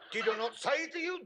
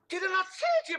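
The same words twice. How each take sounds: First: It is spoken in a put-on Jewish accent. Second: It is spoken in a different, non-Jewish accent. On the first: "You cannot do it in that voice"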